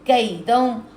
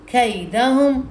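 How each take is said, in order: First: The first consonant is a soft k sound. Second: The first consonant is a raspy kh sound. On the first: "काफ नरमी से" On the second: "वो खा की आवाज़ देते हैं इसको"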